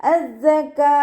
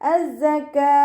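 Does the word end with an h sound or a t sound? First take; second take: h sound; h sound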